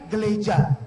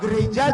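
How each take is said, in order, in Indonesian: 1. Konsonan di tengah diganti dengan bunyi l. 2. Konsonan di tengah adalah bunyi r yang jelas.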